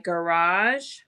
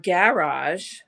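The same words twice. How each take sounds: First: It is said with an American pronunciation. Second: It is said with a British pronunciation.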